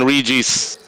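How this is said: The name is said with a Western pronunciation. "You're using the Western pronunciation of the name"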